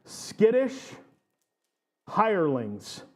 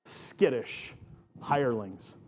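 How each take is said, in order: First: Skittish said high with a rising lilt, then hirelings; playful emphasis. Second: Said in the usual way. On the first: Shown as a demonstration. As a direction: pitch Skittish up high, teasing. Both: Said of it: "So bear with me, bear with me".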